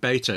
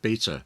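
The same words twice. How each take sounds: First: The word is said with an American pronunciation. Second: The word is said with a non-American pronunciation. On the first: The speaker has picked up the other person's way of saying it. "you just got me saying beta" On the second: This is the speaker's usual way of saying it. "instead of beta"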